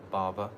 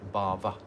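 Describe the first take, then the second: No difference in how they are said.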